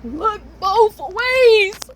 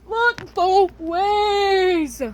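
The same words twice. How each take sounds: First: Slow, high, loud stretched-out reminder; singsong stretched warning to her past self; drawn-out advice. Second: Very slow, higher stretched repeat; slow singsong echo of the warning; drawn-out advice. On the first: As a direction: drag every word out high and loud. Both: Acted.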